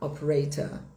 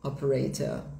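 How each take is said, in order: First: It is said in a British accent. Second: The same.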